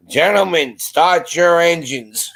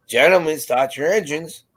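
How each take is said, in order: First: Higher, drawn-out announcer call; race starter's call. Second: Said in the usual way. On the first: Retold or imitated. Joker calling out after the chaplain's amen, race announcer style. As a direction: stretch it out like the command opening a race. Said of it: "I had to do it, and I went". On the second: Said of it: "I said".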